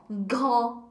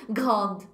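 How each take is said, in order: First: "Grand" with an open nasal vowel and silent D; correct French pronunciation. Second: Imitating "Grande" with the D wrongly sounded, low; students' mispronunciation. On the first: Shown as a demonstration. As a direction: end "Grand" with the mouth left open, no D. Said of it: "Não pode nem fechar a boca". ("Grand" nasal, sem nenhum D) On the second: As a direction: let the D slip into "Grande", like a cautious student. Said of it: "eles ficam falando bem devagarzinho". ("Grande" imitando o aluno, deixando sair o D)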